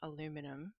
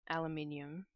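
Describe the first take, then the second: First: It is said with an American pronunciation. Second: It is said with an Australian pronunciation. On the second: "I still call it"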